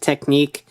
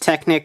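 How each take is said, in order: First: The word ends with a long 'neek' sound. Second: The word ends with a short 'nick' sound. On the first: "the pronunciation is actually Technique" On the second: "the spelling is Technic"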